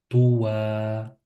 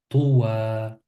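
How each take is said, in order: Both takes have the same delivery.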